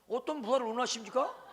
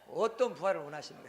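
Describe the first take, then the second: First: It is asked in a demanding, confrontational tone. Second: It is asked in a humble, gentle tone.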